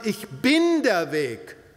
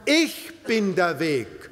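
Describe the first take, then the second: First: The stress is on "der". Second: The stress is on "Ich".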